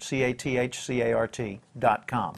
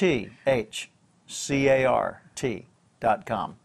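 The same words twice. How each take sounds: First: It is spelled out at normal speed. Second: It is spelled out slowly.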